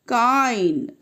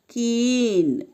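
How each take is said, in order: First: The vowel is a long gliding sound. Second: The vowel is short. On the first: The speaker calls it wrong. "not kine" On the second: The speaker calls it right. "It is pronounced as keen"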